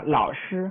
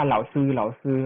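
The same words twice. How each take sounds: First: เหล่าชื่อ with a curled-tongue ช, shown as the right way; correct pronunciation. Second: เหล่าซือ with a flat s, no curled tongue, as the wrong version; mock the common mistake เหล่าซือ; wrong pronunciation. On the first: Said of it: "ต้องออกเสียงให้ถูกว่า". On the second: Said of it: "ฟังแล้วเจ็บปวด". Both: Shown as a demonstration.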